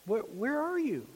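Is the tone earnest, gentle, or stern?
gentle. It is said in a soft, gentle tone. God is calling out tenderly. "Was it gentle?"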